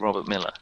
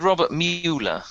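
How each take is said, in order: First: The surname's first vowel sounds like 'mill'. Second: The surname's first vowel sounds like 'mule'. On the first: This is how local people say the name. "everyone in Austin would say Robert Miller" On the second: This is how someone reading the name would say it. "he said Robert Mueller, which is how you would pronounce it if you had read it and didn't know any better"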